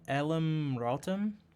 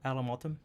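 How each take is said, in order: First: The R sound in the name is clearly pronounced. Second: The R sound in the name is dropped. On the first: "Although it doesn't sound that like that when he says it" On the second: "It sounds like there's no R"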